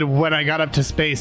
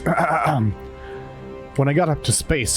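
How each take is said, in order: First: It is said in the speaker's normal voice. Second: It is said in an imitated, put-on voice.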